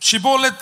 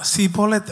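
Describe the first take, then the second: First: The word begins with a 'sh' sound. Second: The word begins with an 's' sound. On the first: This is the form the group could not say. The speaker calls it right. "ஷிபோலெத் அப்படின்னு சொன்னா அவங்களுக்கு என்ன வராதா?" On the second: This is how the group actually said it. The speaker calls it wrong. "சிபோலெத் அப்படிமானா"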